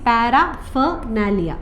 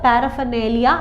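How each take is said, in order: First: The third syllable has an 'ah' vowel. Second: The third syllable has an 'ay' vowel. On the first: This helps to remember the spelling. "Split ചെയ്ത് ഓർത്താൽ മതി" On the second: This is how the word is normally pronounced. "നേലിയ എന്നാണ് pronounce ചെയ്യുന്നത്"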